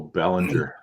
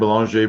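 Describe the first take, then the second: First: The name is pronounced with an English sound. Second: The name is pronounced with a French sound. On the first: "or does he just go Bellinger?" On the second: "I'm saying that with the the Canadian French way"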